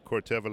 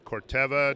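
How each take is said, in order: First: The ending is said like the sandals. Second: The ending is not said like the sandals. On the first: The speaker calls it wrong. "I like to say Corteva like the sandals" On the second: The speaker calls it right. "that is Corteva"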